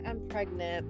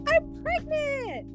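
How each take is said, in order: First: It is said in a calm, matter-of-fact way. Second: It is said in an excited, dramatic way.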